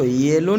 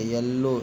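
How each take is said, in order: First: येलो with a long 'ay' vowel; wrong reading of yellow. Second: येलो with a short first vowel, 'yuh-lo'; correct reading of yellow. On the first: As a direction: stretch the first vowel of येलो to 'yay-lo'. (गलत उच्चारण, येलो में लंबा 'ए') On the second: (सही उच्चारण, येलो में छोटा 'य') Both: Shown as a demonstration. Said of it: "इसको येलो नहीं पढ़ेंगे".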